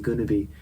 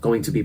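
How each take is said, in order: First: The words 'going to' are reduced to 'gonna'. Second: The words 'going to' are said in full.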